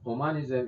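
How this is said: The word is said with a French pronunciation. "in French pronunciation"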